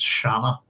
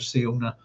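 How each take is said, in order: First: The name is said as 'Shanna'. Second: The name is said as 'Siona'. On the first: The speaker calls it right. "it's not, it's Shanna" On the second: The speaker calls it wrong. "I'm as guilty as everybody in mispronouncing it"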